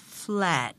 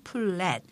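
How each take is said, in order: First: Flat as one English syllable; one-syllable pronunciation. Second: Flat split in two, like 플-랫; Konglish two syllables. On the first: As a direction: run f straight into l in flat, no vowel between. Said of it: "이름절로 발음이 되기 때문에". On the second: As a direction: add a Korean vowel between f and l in flat. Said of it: "이음절로 발음하시지만". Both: Shown as a demonstration.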